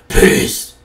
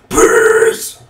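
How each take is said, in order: First: The word is said flatly with little energy. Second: The word is said loudly with lively energy. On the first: The speaker calls it wrong. "I didn't say that right. It absolutely sucked" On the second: The speaker calls it right. "actually do it right"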